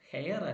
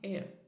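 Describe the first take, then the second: First: The word starts with an audible h sound. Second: The word starts with a vowel, no h. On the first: The speaker calls it wrong. "ഹെയർ അല്ല" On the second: The speaker calls it right. "An എയർ"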